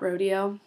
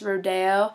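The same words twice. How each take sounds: First: It is pronounced the ordinary English way. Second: It is pronounced the way the station announces it. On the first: The speaker calls it wrong. "not rodeo" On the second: The speaker calls it right. "I listened at the station and it's Rodeo"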